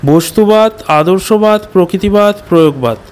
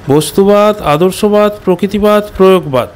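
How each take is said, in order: The two takes are said the same way.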